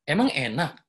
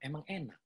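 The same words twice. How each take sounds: First: It is said as a questioning, rising tone. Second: It is said in a flat, even tone. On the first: The speaker asks back instead of answering. "ini mempertanyakan" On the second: It is a plain statement, nothing more. "Yang pertama tuh flat aja gitu"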